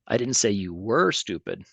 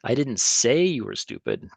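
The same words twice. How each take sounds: First: The word were carries the main stress. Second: The word say carries the main stress. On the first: The listener is still stupid now. "I actually think you are stupid" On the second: The speaker only thought it. "but I probably thought it"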